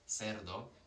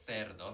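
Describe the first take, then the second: First: The first sound is an 's' sound. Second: The first sound is a 'th' sound.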